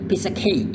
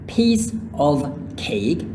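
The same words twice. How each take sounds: First: The word 'of' is reduced to 'uh'. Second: The word 'of' is pronounced fully.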